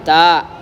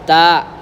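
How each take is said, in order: First: The final consonant is dragged out slightly. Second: The final consonant is dragged out slightly.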